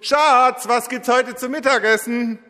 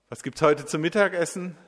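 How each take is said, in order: First: It is called out loudly, nearly shouted. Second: It is said somewhat louder than normal.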